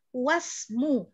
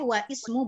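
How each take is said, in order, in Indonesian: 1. Kedua katanya disambung, dan huruf i di awal dihilangkan. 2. Kedua katanya terpisah, dan huruf i di awal dibaca. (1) "kalau mau diteruskan wasmu, ya kan alifnya itu hilang" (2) "kita bacanya boleh wa ismu boleh"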